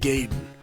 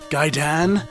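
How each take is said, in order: First: It is said with an Americanized pronunciation. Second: It is said with a Japanese-style pronunciation. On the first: This is how kids in America said it. "called the game Ninja Gaiden" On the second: The speaker thinks this sounds pretentious. "emphasize it as Gaiden"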